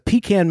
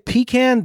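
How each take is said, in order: First: It is said the Southern way. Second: It is said the non-Southern way. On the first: The person saying it is from the South. The speaker calls it right. "down here we say pecan" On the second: The person saying it is not really from the South. The speaker calls it wrong. "If they say pecan, they're not from the South"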